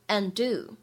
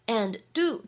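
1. and 末尾的 d 不爆破。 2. and 末尾的 d 要爆破。

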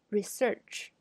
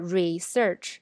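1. 第一个音节是弱的，弱化了。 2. 第一个音节是饱满的，很重。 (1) "要把它弱化，变成research" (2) "第一个也读得很重"

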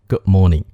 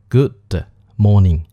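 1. 'good' 的结尾 d 不发出来。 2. 'good' 的结尾 d 明显要发出来。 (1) "而说Good morning？就是Good 这个的最后一个字母发d" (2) "为什么不说"

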